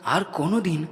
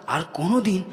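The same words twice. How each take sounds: The two takes are said the same way.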